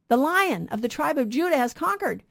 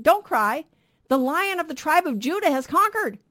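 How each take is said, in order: First: Said in the usual way. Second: Raised, higher ringing announcement; angel's proclamation. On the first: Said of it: "preacher repeats the angel's words". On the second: Retold or imitated. Angel tells weeping John the Lion has conquered, ringing proclamation. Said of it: "and he says".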